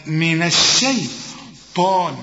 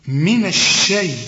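First: الشيطان slow and full, every letter drawn out; correct pronunciation. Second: الشيء cut short, stopping before طان; wrong pronunciation. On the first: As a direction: stretch الشيطان slowly and fully. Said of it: "لا، من الشيطان". (الشيطان بنطق بطيء كامل) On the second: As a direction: say من الشيء as a clipped mistake. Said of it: "ما تقولش من الشيء". (نطق خاطئ مبتور للشيطان) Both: Shown as a demonstration.

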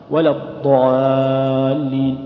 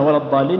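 First: ولا الضالين chanted slowly with a thin, unrounded alif; light alif. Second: Said in the usual way. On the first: Shown as a demonstration. Teacher showing some scholars' light-alif reading. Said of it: "يقول نقرأها هكذا". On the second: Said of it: "فمثلًا".

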